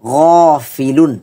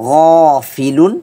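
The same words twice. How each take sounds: Both takes have the same delivery.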